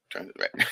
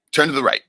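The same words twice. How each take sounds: First: Said in the usual way. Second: Booming order to turn right, "Turn" hit hard; God's loud command. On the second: Retold or imitated. Retelling mother's story, God commands loudly. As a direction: call out the order like a voice from above. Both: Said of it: "And he'd say".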